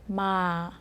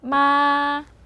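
First: The tone falls slowly from high to low. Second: The tone stays high, level and long. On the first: "이렇게 천천히 내려주시면 돼요" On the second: "높고 길게 해서 마 이렇게 발음해주시면 돼요"

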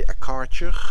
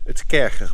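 First: It is said with an American pronunciation. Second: It is said with a German pronunciation. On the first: The speaker calls it wrong. "as your Americans say" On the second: The speaker calls it right. "It's German, kercher"

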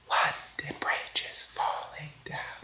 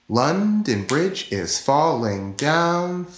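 First: It is whispered using only breath. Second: It is spoken aloud with full voice. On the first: "I wasn't using my voice. I was whispering" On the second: "I wasn't doing different musical pitches, but I was saying the words of the song"

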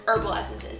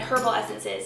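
First: It is said the way it is said in America. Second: It is said the way it is said in England. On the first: "instead of herbal essences" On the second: "in England we said herbal essences"

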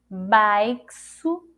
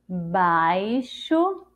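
First: The x is sounded as ks. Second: The x is sounded as sh. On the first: The speaker calls it wrong. "E com som de ceci" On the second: The speaker calls it right. "E com o som do C H?"

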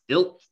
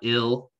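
First: The final consonant is glottalized with a sharp catch. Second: The final consonant is plain, without a glottal catch. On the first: The speaker calls it right. "this is also a glottalized letter" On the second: The speaker calls it wrong. "So it's not ill"

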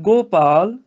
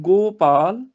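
The two takes are said the same way.

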